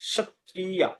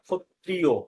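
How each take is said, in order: First: It is said in the Sanskrit style. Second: It is said in the Bengali style. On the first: "সংস্কৃত উচ্চারণ করবো তখন ক্ষত্রিয়া" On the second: "আমরা যখন বাংলায় ক্ষত্রিয় বলছি"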